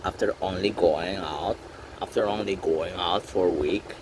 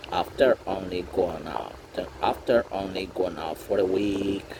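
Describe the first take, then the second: No difference in how they are said.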